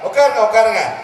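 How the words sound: It is said warmly, with a smile. The guest is truly welcome. The speaker calls it right. "நம்மளை சிரிச்சு வரவேற்கணும்"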